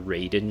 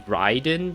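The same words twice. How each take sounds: First: The name is pronounced with English sounds. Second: The name is pronounced with Japanese sounds. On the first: The speaker calls it wrong. "how we English people would pronounce that word" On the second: The speaker calls it right. "But it's apparently Raiden because Rai is like like thunder"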